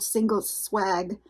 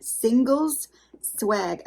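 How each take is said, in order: First: Said in the usual way. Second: "singles swag" said slowly, working to sound the S at the end of "singles"; effort on the S. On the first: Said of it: "I can never say it to where that S". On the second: Shown as a demonstration. Trying to say her box name with the S, slow careful stress. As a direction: stretch "singles swag" out and push out the final S of "singles". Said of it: "I can never say it to where that S comes out".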